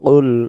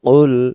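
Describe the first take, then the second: Both takes have the same delivery.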